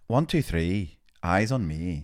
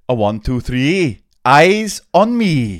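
First: It is said in an Irish accent. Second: It is said in a Welsh accent.

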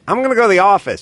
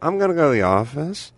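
First: The pitch stays level on the last syllables. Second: The pitch dips down on the last syllables. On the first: "He wouldn't say" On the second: "He'd go down on his last couple of syllables"

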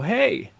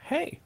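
First: The greeting sounds warm and lively. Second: The greeting sounds cool and flat.

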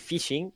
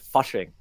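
First: The first vowel sounds like 'ih'. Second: The first vowel sounds like 'uh'. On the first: "that's Australian" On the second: "in New Zealand it's a U"

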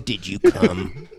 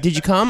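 First: It is asked in an angry, accusing tone. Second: It is asked in a kind, caring tone.

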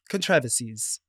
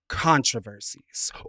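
First: It is said in a British accent. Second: It is said in an American accent.

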